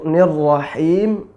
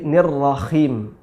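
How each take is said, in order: First: The middle consonant is a smooth breathy h. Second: The middle consonant is a raspy throaty kh. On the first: It means the Merciful. The speaker calls it right. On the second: The meaning changes to something else. The speaker calls it wrong.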